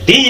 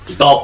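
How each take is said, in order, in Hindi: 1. स्वर एक लंबी, साफ 'ee' ध्वनि है। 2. स्वर एक छोटी, हल्की 'uh' ध्वनि है। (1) "इसलिए यहां पर हम दी पढ़ेंगे।" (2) "इसलिए यहां पर द पढ़ेंगे।"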